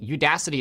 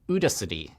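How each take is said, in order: First: The word has its usual, natural pronunciation. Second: The word is pronounced in a garbled, odd way. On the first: The speaker calls it right. "instead of saying Udacity" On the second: The speaker calls it wrong. "it said Udacity, or you know some other weird amalgamation of that word"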